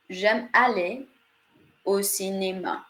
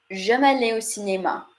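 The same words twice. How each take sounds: First: "J'aime aller" rises at the pause, "au cinéma" falls at the end; phrase-end stress. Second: "J'aime aller au cinéma" kept flat, only the end of the phrase stressed; flat French intonation. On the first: French teacher showing stress at the ends of phrases. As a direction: split into two groups, rise on "aller", fall on "cinéma". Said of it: "stress ... only at the ends of phrases". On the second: French teacher demonstrating flat French intonation. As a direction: keep it almost monotone, weight on "cinéma" at the end. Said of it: "So it's much more flat".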